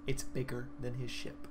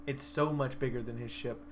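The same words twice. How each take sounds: First: Said in the usual way. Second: "so" leaned on and stretched; stress on so. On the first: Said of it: "This thing is size category five". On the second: Shown as a demonstration. Telling friends how huge the sandworm is, "so" stressed. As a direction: lean hard into "so" for scale.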